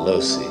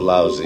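First: The name does not sound like lousy. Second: The name sounds like the English word lousy. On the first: This is how the family says its own name. The speaker calls it right. "My family, which prides itself on a long history, calls itself Losey" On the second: This is a schoolyard nickname. The speaker calls it wrong. "In high school, I was called lousy"

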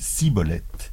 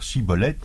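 First: The word begins with an s sound. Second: The word begins with a sh sound. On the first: This form gave the speaker away as an Ephraimite. The speaker calls it wrong. "ils disaient Shibboleth" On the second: This is the form the guards demanded. The speaker calls it right. "n'arrivaient jamais à dire Shibboleth"

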